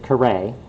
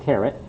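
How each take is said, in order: First: The word ends without any T sound. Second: The word ends with a clear T sound. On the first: "So it's Carré" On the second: "you all expect me to say the T in carrot"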